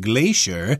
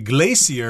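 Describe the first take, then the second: First: It is said with the American pronunciation. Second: It is said with a non-American pronunciation. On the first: Americans say it this way. "we Americans say glacier" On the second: Some other speakers say it this way. "I've heard people say glacier as well"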